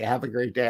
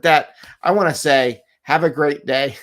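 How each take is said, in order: First: Said in the usual way. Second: Bright, loud farewell; a cheerful host wrapping up the show; cheery sign-off. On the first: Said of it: "I'm gonna say". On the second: Shown as a demonstration. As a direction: beam out a big upbeat goodbye. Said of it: "That was a rough reflection".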